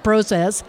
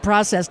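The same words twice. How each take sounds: First: The word is said with a non-American pronunciation. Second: The word is said with an American pronunciation. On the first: "not process" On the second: "I'm American, I said process"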